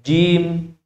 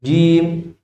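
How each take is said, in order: Both takes have the same delivery.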